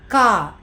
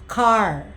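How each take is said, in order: First: The final R is dropped. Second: The final R is clearly pronounced. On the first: "It's not car" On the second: "They roll their R"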